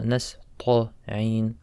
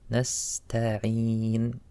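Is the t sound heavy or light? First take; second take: heavy; light. First: The t sound is heavy. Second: The t sound is light. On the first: The speaker calls it wrong. "not nasta'een" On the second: The speaker calls it right. "Make the letter light"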